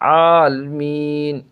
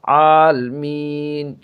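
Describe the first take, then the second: No difference in how they are said.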